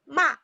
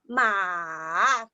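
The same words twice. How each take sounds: First: The pitch falls straight down. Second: The pitch dips down and then rises. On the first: "So you go down" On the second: "So you go down first and then go up"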